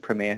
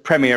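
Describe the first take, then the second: First: It is said with an American pronunciation. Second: It is said with a British pronunciation.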